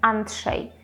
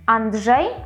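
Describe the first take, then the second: First: The consonants are pronounced voiceless. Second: The consonants are pronounced voiced. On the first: The speaker calls it wrong. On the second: The speaker calls it right.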